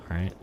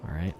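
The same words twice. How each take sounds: The two takes are said the same way.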